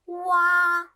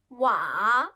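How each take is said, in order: First: The pitch stays high and level. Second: The pitch dips low then rises.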